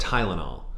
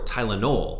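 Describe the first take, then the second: First: The word has its ordinary stress pattern. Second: The 'o' syllable is given extra stress.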